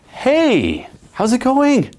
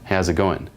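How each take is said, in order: First: It sounds eager, with the voice rising at the end. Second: It sounds calm and steady, without trying hard. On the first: "your voice goes up at the end... trying a little too hard" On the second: "just like very steady"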